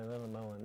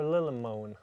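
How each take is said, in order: First: Lillemoen said the Norwegian way, low-pitched; low, soft Norwegian Lillemoen; Norwegian pronunciation. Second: Lillemoen with an English long o; Lillemoen, the anglicized way; alternative pronunciation. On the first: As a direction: say Lillemoen softly as LIL-leh-moo-en, in Norwegian. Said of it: "That's how we say it in Norwegian". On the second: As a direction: say Lillemoen as LIL-uh-MOH-en. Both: Shown as a demonstration.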